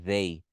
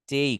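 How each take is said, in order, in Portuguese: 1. Começa com um som de th sonoro. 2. Começa com um t simples. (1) "vibrando, fica uma, vi- uma vibração ali" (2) "com som de T, de tatu"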